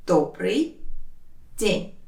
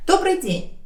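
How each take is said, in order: First: «Добрый», long pause, «день»; slow teaching breakdown of «Добрый день»; word by word. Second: Said in the usual way. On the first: Shown as a demonstration. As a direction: say each word on its own. Teacher separates words for learners.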